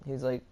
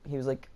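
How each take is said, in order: Both takes have the same delivery.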